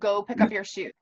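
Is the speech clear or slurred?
clear. The words are spoken clearly.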